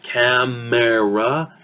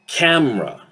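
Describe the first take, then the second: First: The middle vowel is fully pronounced. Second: The middle vowel is reduced into the m.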